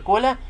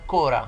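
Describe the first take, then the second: First: The middle consonant is an L sound. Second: The middle consonant is an R sound. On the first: "يقول لك مثلا كولا" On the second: "هنا الكولا بينطقها كورا"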